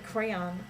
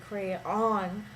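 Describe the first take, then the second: First: The stress is on the first syllable. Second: The stress is on the second syllable. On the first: The speaker calls it right. "when I say crayon" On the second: The speaker calls it wrong. "I do not say crayon. That's not the part that's louder"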